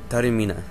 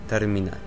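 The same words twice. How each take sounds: The two takes are said the same way.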